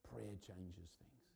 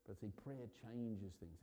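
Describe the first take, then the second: First: "Prayer changes things" said very slowly and softer, each word weighted; slow emphatic repeat. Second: Said in the usual way. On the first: Shown as a demonstration. Preacher repeating his point so the church takes it in, slow and emphatic. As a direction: let "Prayer" land and slow right down on the repeat.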